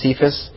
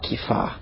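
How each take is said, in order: First: The name begins with an s sound. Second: The name begins with a k sound. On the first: This is the usual pronunciation. "everyone pronounces Peter's name here as Cephas" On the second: This is the original pronunciation. "I do think it's pronounced Kepha"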